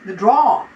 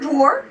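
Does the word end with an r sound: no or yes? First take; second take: no; yes. First: The word ends without an r sound. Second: The word ends with an r sound. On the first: This is the British way of saying it. "That's a British way of saying drawer" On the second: This is the American way of saying it. "She don't say drawer"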